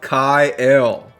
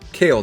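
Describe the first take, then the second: First: The vowel sounds like the one in 'mile'. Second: The vowel sounds like the one in 'mail'. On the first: The speaker calls it right. "Not Kale" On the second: The speaker calls it wrong. "So just one syllable"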